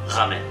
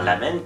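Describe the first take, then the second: First: The word starts with an R sound. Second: The word starts with an L sound. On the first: The speaker calls it wrong. "que un R" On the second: The speaker calls it right. "mieux vaut faire un L"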